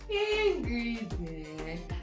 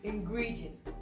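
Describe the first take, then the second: First: The stressed syllable is pushed out with heavy force. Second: The stressed syllable gets moderate, natural emphasis. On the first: The speaker calls it wrong. "I didn't say ingredient" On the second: The speaker calls it right. "So when I pronounce it, you can hear ingredients"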